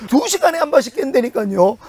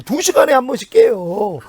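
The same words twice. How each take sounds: First: 두 stressed with a rising lift. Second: Said in the usual way. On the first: Shown as a demonstration. Pastor insisting to the congregation, stressing 두. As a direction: lean on 두 to insist on the hours.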